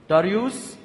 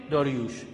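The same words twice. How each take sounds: First: داریوس ending in a crisp s, "Daryus"; Greek-style "Daryus"; Greek form. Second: داریوش ending in sh, "Daryush"; Hebrew-style "Daryush"; Hebrew form. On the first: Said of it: "اول یونانیش کنید". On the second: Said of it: "بعدش هم عبریش کنید". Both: Shown as a demonstration.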